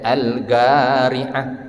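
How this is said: The consonant after 'al' is a G sound. The speaker calls it wrong.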